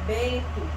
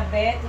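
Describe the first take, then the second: First: "Bento" with a nasal E. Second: "Beto" with an open oral E; oral vowel BETO. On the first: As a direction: send the first vowel of "Bento" through the nose. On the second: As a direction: say "Beto" with no nasal before the T. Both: Shown as a demonstration.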